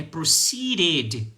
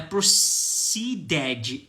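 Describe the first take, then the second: First: "proceeded" ending in a crisp "-ded", no extra vowel; correct pronunciation. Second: "proceeded" with an extra vowel, "pro-see-DED-jee"; wrong pronunciation. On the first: Teacher showing students the right ending. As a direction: say "proceeded" slowly with a clean final "ed". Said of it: "é proceeded". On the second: Teacher demonstrating the wrong way to students. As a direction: say "proceeded" the Brazilian way, ending in "dji". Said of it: "Não é proceeded". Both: Shown as a demonstration.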